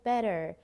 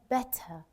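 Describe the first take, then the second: First: The word ends with an r-colored er sound. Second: The word ends with a plain uh schwa. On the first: "an American, they would say better, just er at the end" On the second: "British English, we pronounce it as an uh"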